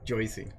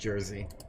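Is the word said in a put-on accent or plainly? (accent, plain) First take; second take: accent; plain. First: It is said in an exaggerated put-on accent. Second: It is said plainly without a put-on accent. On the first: "I'm putting on an accent" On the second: "We call it Jersey"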